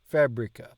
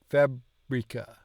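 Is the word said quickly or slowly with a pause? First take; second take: quickly; slowly. First: It is said quickly with a brief pause. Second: It is said slowly with a pause inside. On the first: "you do your slowness quicker" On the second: "You kind of pause in between"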